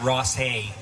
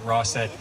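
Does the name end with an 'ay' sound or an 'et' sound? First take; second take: ay; et. First: The name ends with an 'ay' sound. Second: The name ends with an 'et' sound. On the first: This is how some people say the road's name. "some pronounce it Ross Hay" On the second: This is the name as used in the song. "for the purpose of our song, we call it Rosset"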